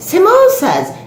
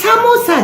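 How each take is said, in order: First: "Samosas" high, with an affected long o; mock the put-on "Samosas", like "smoh-sas"; mispronounced "Samosas". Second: "samosa" in everyday Indian pronunciation, high; proper "samosa". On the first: Auntie echoing the woman in disbelief, affected "Samosas". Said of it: "I don't know how to pronounce properly". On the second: Shown as a demonstration. Auntie correcting the woman, proper "samosa". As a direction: correct it firmly to "samosa", short open vowels. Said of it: "pronounce properly".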